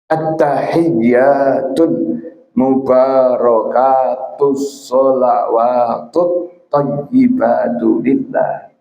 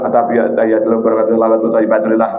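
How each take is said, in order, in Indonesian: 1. Panjang vokal dan huruf bertasydid ditahan dengan hati-hati. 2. Panjang vokal dan huruf bertasydid dibaca terburu-buru. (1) "Ini mesti benar" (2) "Ini enggak pakai tajwid, ini enggak sah"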